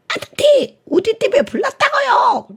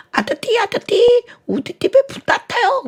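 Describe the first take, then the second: First: Put-on much higher, louder, lisping child's plea; a tongue-tied child repeating the call; lisping little kid. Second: Put-on a tongue-tied child calling out, high and loud; lisping little kid. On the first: The child repeats it to the firefighter, high lisping plea. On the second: A tongue-tied child calls the fire station, high lisping cry. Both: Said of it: "이 아이가 혀가 짧아".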